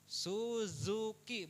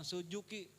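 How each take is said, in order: First: The middle consonant is a z sound. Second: The middle consonant is a j sound. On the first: The speaker calls it right. "Suzuki bukan sujuki" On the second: The speaker calls it wrong. "bukan sujuki"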